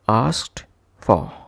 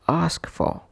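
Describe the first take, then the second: First: The t sound of asked is heard. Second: The t sound of asked is dropped. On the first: "would be pronounced as asked for" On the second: "would become ask for"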